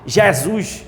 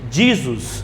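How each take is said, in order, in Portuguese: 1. O nome é pronunciado com sotaque paraibano. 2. O nome é pronunciado do jeito inglês. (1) "Ou em paraibês" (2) "Do inglês"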